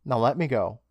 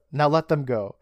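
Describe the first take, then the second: First: Said in the usual way. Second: "them" punched louder in a correction; stress on THEM. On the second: Retold or imitated. Host fixing Dad's line to the doctor, stressing "them". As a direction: hit "them" harder to fix the quote.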